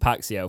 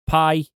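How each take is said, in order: First: The name ends with a 'see-oh' sound. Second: The name ends with a 'shaw' sound. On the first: The speaker calls it wrong. "we obviously were calling him Paxio for a while, but that doesn't even make sense" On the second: The speaker calls it right. "This is how you meant to pronounce it"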